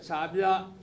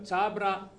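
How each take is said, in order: First: The R is a rounded, throaty R. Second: The R is an ordinary flapped R.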